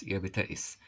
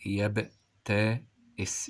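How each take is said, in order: First: Said in the usual way. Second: يبتئس slowly broken into separate syllables; slow teacher's dictation. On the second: Shown as a demonstration. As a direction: sound out each part with gaps. Teacher sounds word out, then repeats.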